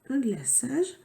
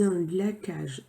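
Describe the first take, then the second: First: The middle consonant is a soft S sound. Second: The middle consonant is a hard K sound. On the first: The speaker calls it right. "c'était C C D" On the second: The speaker calls it wrong. "Si on avait mis que un C, ça faisait un glaçage. Ça n'existe pas"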